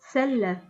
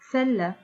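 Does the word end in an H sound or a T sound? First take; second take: H sound; H sound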